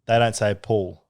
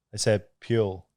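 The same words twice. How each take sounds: First: Said in the usual way. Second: "pure" for pool, with a y-glide; put-on Aussie vowel. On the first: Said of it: "I'm trying to put it on". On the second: Shown as a demonstration. Contrasting it with the usual pool, put-on Aussie vowel. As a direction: say "pure" like "pyool".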